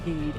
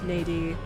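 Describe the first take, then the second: First: The name is said with one syllable. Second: The name is said with two syllables. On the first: The speaker calls it right. "now we know to pronounce it like need, like mead" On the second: The speaker calls it wrong. "I think that was how I pronounced it back in the day"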